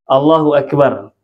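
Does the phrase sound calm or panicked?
calm. It is said calmly, as in quiet prayer. It is said as routine remembrance of God. "Seperti contoh zikir"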